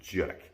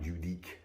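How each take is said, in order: First: The name is squeezed into one syllable. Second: The name is spread over two syllables. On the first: The speaker calls it right. "you pronounce it Judique ... it's one syllable" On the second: The speaker calls it wrong. "not Judique"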